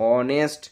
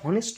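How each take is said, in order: First: The word begins with a vowel sound. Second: The word begins with an h sound. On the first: The speaker calls it right. "উচ্চারণটা হচ্ছে অনেস্ট" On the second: The speaker calls it wrong. "এই উচ্চারণটা হনেস্ট নয়"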